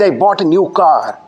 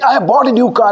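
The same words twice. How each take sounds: First: It is said flatly, with little energy. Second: It is said excitedly, with lots of energy.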